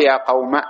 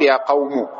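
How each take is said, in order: First: "قوم" ending in short a; fatha only. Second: "قوم" ending in u; damma ending. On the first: Teacher dropping the alif, "قوم" keeping its fatha. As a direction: say "قوم" as qawma. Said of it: "الفتحة موجودة". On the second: Teacher showing the weak sixth form, "قوم" with damma. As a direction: say "قوم" as qawmu. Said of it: "فتضم". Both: Shown as a demonstration.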